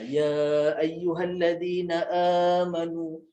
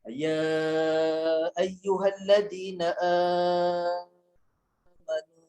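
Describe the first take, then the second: First: The opening vowel of amanu is held briefly. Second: The opening vowel of amanu is drawn out. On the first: "kita akan bacanya dengan uh, dua harakat saja" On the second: "ada imam dia akan baca dengan empat harakat ataupun enam harakat"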